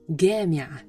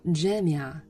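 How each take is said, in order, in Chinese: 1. 第一个辅音是硬的g音。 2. 第一个辅音是柔和的j音。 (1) "在埃及方言那里jamia 就变成了gamia" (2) "在标准语当中它发jim"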